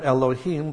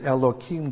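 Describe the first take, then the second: First: The middle consonant is an H sound. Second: The middle consonant is a K sound.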